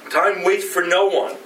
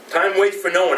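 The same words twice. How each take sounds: First: "no" leaned on with a falling tune; stress on no. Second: "waits" leaned on with a falling tune; stress on waits. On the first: Preacher stating the point, weight on "no". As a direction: hit "no" in "Time waits for no one". Repeated line, first take. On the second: Preacher repeating the point, now stressing "waits". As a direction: hit "waits" in "Time waits for no one". Repeated line, second take. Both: Real, not acted.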